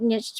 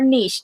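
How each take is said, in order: First: It is said with an English pronunciation. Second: It is said with a French pronunciation.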